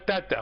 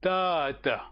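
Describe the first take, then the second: First: The first vowel is short. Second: The first vowel is long. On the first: The speaker calls it wrong. "on dit pas tata" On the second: The speaker calls it right. "on dit tata"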